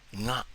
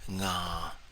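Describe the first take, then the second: First: The tone is short, not held. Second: The tone is long and held steady.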